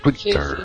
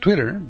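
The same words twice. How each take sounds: First: It is said with a British accent. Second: It is said with an American accent. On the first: "usé un acento inglés ahí" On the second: "que es como se dice aquí en Estados Unidos"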